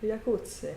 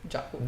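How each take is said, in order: First: The word begins with a Y sound. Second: The word begins with a J sound. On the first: "I say the the the, the J as a Y" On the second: "You say J like a G"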